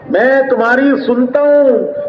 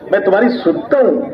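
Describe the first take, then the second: First: Slow emphatic. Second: Said in the usual way. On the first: Shown as a demonstration. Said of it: "repeated slower". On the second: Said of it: "repeated line".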